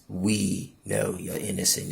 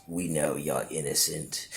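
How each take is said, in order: First: Said in the usual way. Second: Low, soft, ominous jailer voice; cold jailer. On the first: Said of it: "And he says". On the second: Retold or imitated. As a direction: drop it low and quiet like a cold warden. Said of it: "And the dude goes".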